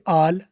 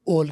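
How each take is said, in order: First: It has an American open 'ah' vowel. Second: It has a British rounded 'aw' vowel.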